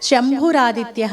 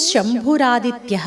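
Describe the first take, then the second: Both takes have the same delivery.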